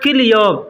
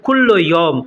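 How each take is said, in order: First: The first word is shortened to kil. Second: The first word is said fully as kullo.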